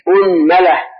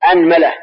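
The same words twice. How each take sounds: First: أنملة said as "unmala", u on hamza, a on mim; أنملة starting with a rounded u; teacher sounding out أنملة with damma. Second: أنملة said as "anmala", open a on hamza and mim; أنملة with a-sound first, a on the mim; teacher sounding out أنملة with fatha; fatha on both. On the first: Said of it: "ضم الهمزة وفتح الميم". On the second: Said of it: "نبدأ بفتح الهمزة وفتح الميم". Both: Shown as a demonstration.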